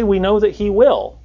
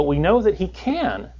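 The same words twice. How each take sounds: First: "will" picked out with higher pitch, then falling; stress on will. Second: Slower line, "can" drawn out for contrast; stress on can. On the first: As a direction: set "will" apart as the contrasting word. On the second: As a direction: land on "can" as the word that matters. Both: Shown as a demonstration. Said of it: "They didn't say".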